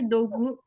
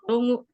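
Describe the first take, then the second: First: The middle consonant is a hard g sound. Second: The middle consonant is a nasal ng sound. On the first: This is how the word is written. "ini juga ada tulisannya ini dogu" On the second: This is how the word is actually read. "tapi cara bacanya dongu"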